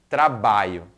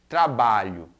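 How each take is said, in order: The two takes are said the same way.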